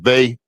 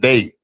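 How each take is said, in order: First: The word starts with a th sound. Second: The word starts with a d sound. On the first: "like they with the th" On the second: "they like the D E Y"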